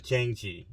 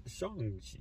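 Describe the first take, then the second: First: Chang-Chi as it is spelled; Chang-Chi read out from the spelling; mispronunciation. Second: Shang-Chi, softly, with an opening "sh"; Shang-Chi as pronounced, "sh" not "ch"; correct pronunciation. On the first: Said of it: "Uh, not Chang-Chi". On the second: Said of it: "but it's pronounced Shang-Chi". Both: Shown as a demonstration.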